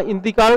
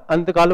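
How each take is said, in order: First: Said in the usual way. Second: "अंतकाल" opening on "ant", not "inti"; folk-altered Arabic word. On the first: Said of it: "कहाँ इंतकाल था". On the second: Shown as a demonstration. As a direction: turn the first vowel to A: "अंतकाल". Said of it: "अंतकाल बन गया". ("अंतकाल": इ की जगह अ से शुरू)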